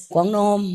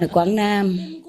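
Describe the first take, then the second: First: "Quảng Nam" in the Quảng Nam accent, rounded kwong nom. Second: "Quảng Nam" said the Southern way, a clear open kwang nam; Southern pronunciation. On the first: Teacher mimicking the disciple's home dialect to students, Quảng Nam accent. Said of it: "in his area". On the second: Teacher showing students how the South says it, Southern pronunciation. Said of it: "we say". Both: Shown as a demonstration.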